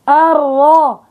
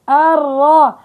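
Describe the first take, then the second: Both takes have the same delivery.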